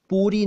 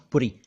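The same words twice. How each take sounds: First: पूरी with a long oo, pooree; long oo poori. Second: पुरी with a short u, purri; short u puri. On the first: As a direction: stretch the oo in पूरी. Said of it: "खाना पुरी". (पूरी में बड़ा ऊ) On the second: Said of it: "पूरी नहीं है". (पुरी में छोटा उ) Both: Shown as a demonstration.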